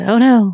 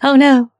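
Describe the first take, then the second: First: It is said in a neutral accent. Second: It is said in a Southern accent. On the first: "She said" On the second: "Say it in a Southern accent"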